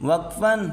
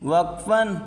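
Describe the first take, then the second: No difference in how they are said.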